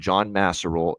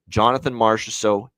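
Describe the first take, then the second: First: The name is said in a mangled form. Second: The name is said in its usual form. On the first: The speaker calls it wrong. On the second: The speaker calls it right.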